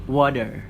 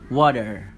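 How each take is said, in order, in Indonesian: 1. Aksen Amerika: r jelas, t lemah. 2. Aksen Amerika: r jelas, t lemah.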